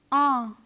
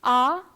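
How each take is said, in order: First: Ah as a French nasal vowel, falling. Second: Ah as an open oral French A, rising; French letter A. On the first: Teacher compares two sounds for students, nasal ah. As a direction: send ah through the nose, tune dropping. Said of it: "Listen and compare the two sounds". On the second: Teacher compares two sounds for students, oral French A. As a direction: say Ah through the mouth only, tune lifting. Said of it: "similar to the French letter A. Listen and compare". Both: Shown as a demonstration.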